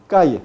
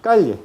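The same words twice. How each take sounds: First: No l at all in "Calle", just a y glide; y sound in calle. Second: Castilian lateral ll in "calle", falling tune. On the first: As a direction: model "Calle" as "ca-ye". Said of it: "hay diferencia de pronunciación". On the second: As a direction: model "calle" with palatal l, "ca-lye". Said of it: "en España". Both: Shown as a demonstration.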